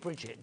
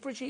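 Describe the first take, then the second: First: The name is said with an English pronunciation. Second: The name is said with a French pronunciation. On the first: "in fact it's Brigitte" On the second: "exotic and French"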